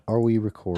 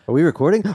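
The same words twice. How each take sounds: First: It is asked in a plain, calm way. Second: It is asked with lively, excited energy.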